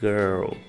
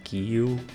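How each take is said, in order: First: The vowel is an 'er' sound with final L. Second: The vowel is an 'i' sound. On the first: The speaker calls it right. "O I R geralmente vai ter um som de E" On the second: The speaker calls it wrong. "não é gil"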